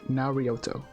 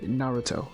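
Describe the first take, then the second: First: An extra vowel is added, Na-ri-o-to. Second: It is said with three syllables, Na-ru-to. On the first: This is the father's odd version of the name. The speaker calls it wrong. "he would call it Narioto consistently, like Narioto" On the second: This is the usual way people say the name. The speaker calls it right. "like normal people would say Naruto"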